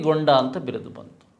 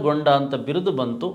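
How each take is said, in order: Both takes have the same delivery.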